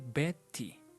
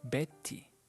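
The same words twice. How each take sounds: Both takes have the same delivery.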